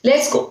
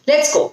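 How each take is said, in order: No difference in how they are said.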